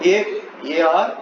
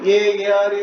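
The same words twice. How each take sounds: First: Short pauses separate each term. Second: The terms run together without pauses. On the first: The speaker calls it right. "కొంచెం gap ఇవ్వాలి" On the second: The speaker calls it wrong. "ఇట్లా పలికేయకూడదు"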